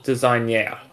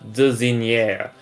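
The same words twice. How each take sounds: First: It ends like the English word designer. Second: It ends with a French 'eur' sound. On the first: The speaker calls it right. "you still pronounce designer like design" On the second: The speaker calls it wrong. "you don't go like designer"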